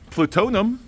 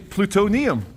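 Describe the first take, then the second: First: The i sound before the ending is dropped. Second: The i sound before the ending is kept. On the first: The speaker calls it wrong. "You don't say plutonium" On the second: The speaker calls it right. "you say plutonium"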